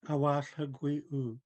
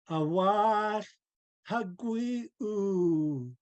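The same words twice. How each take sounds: First: It is said loosely, with little energy. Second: It is said with full, strong energy. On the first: The speaker calls it wrong. "I said that sloppily on purpose" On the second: The speaker calls it right. "really pouring her spirit into the language"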